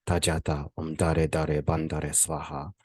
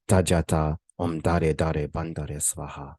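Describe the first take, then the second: No difference in how they are said.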